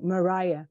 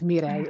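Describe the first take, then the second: First: The name is said like Mariah. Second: The name is said like Mireille. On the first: This is how other people usually say it. The speaker calls it wrong. "most of the time they uh, pronounce it like Mariah" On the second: This is how the name really sounds. The speaker calls it right. "but it's Mireille"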